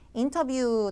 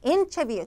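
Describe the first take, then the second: First: It is said flatly, without clear stress. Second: The first syllable carries strong stress. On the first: The speaker calls it wrong. "인터뷰 대충 하는 게 아니라" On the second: The speaker calls it right. "강세를 못 줘서 틀리는데"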